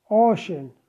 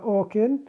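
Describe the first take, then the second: First: The middle consonant is an sh sound. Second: The middle consonant is a k sound. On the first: The speaker calls it right. "ocean لفظ ش" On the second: The speaker calls it wrong. "ولا أوكن"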